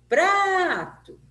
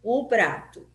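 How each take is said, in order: First: PRA in "Prato" long, high and loud; "Prato" hollered with a drawn-out first syllable; calling out, PRA prolonged. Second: Said in the usual way. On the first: Shown as a demonstration. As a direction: call "Prato" like someone's name, stretching the first syllable. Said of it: "como se essa palavra fosse uma pessoa que eu estivesse chamando". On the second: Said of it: "Por exemplo, eu vou chamar".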